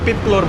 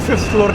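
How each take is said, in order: First: The first word starts with a P sound. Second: The first word starts with an F sound. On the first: "ये फै को पै बोलते हैं" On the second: "वो फिफ्थ फ्लोर नहीं बोलेगा"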